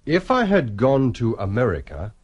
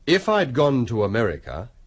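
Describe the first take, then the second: First: 'I had' is said as two full words. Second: 'I had' is shortened to one syllable, 'I'd'.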